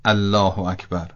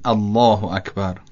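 First: الله with a thin, light L; thin, unemphatic L in الله; light Allah. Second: الله with a thick, dark L and long vowel; thick, emphatic L in الله; heavy Allah. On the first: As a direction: say الله without thickening the L. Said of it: "و نه". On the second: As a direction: give الله a heavy, full L. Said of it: "یعنی یه خورده غلیظ". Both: Shown as a demonstration.

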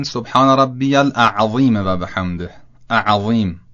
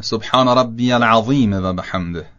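First: "الاعظیم" with an extra alif, mistaken; wrong pronunciation. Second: "العظیم" with a single ع, no extra alif; correct pronunciation. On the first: Teacher imitating a common mistake in ruku zikr. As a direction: say "اعظیم" with a wrong a-sound before ع. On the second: Teacher giving the correct ruku zikr. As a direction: say "العظیم" as al-azim, cleanly. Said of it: "درستش هم که عرض کردم اینه". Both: Shown as a demonstration.

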